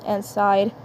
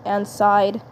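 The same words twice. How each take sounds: The two takes are said the same way.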